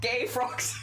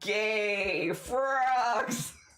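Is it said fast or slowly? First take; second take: fast; slowly. First: It is said fast. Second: It is said slowly.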